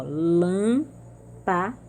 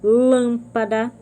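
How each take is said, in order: First: Lâmpada very slowly, split as LÂM, PA, DA; sílabas separadas. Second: Lâmpada with a loud, drawn-out LÂM; antepenúltima sílaba forte. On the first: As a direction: pause between each syllable of lâmpada. (lâmpada bem devagar: LÂM... PA... DA) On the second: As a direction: hit and stretch the first syllable of Lâmpada. (Lâmpada, com o LÂM bem forte e longo) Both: Shown as a demonstration. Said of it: "são as antepenúltimas".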